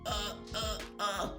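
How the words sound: The voice is tight and squeezed.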